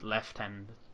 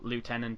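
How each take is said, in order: First: It is said with an f sound. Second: It is said without an f sound.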